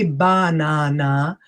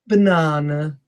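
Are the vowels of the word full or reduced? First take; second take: full; reduced. First: The unstressed vowels are full. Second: The unstressed vowels are reduced. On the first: The speaker calls it wrong. "I don't say banana" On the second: The speaker calls it right. "I'm always using the schwa sound"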